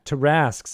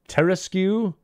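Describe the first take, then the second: First: The ending is said with a plain 'k' sound. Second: The ending is said with a 'kway' sound. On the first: The speaker calls it right. "is how it should be" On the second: The speaker calls it wrong. "the Q U actually pronounced"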